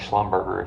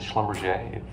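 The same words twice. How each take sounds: First: The name is pronounced the way it is spelled. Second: The name is pronounced unlike its spelling. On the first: This is how a reader would guess it. The speaker calls it wrong. "it looks like Schlumberger if you read it" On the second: This is how the company is actually called. The speaker calls it right. "but Schlumberger"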